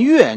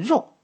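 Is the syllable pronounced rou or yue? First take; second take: yue; rou. First: The syllable is pronounced yue. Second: The syllable is pronounced rou. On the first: "念月你说算不算错？可能应该也不算" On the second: "我还是建议大家应该念肉"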